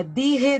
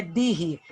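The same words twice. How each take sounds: First: Dirre said higher and louder, the rough R clear; rolled r, stressed. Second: Dirre with a strong rolled R; rolled r sound. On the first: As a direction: hit dirre with the R sound. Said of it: "não se esqueçam que é com R". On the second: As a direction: say dirre with the J as a rough R. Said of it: "o J tem som de R". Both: Shown as a demonstration.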